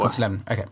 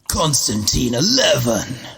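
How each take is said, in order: First: It is said in the speaker's own natural voice. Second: It is said in a put-on voice imitating someone.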